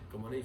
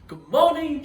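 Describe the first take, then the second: First: The voice is flat with little intonation. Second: The voice is lively with varied intonation. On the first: The speaker sounds uninterested and dull. The speaker calls it wrong. "So it will be monotonous and boring" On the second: The speaker shows enthusiasm and draws attention. The speaker calls it right. "so you have a little bit of showmanship"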